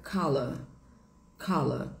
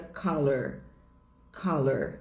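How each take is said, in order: First: Teacher models British colour; British pronunciation. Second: Color with a strong American r ending; teacher models American color; American pronunciation. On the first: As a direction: say color British style, dropping the r. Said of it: "Em inglês britânico fica". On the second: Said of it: "em inglês americano". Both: Shown as a demonstration.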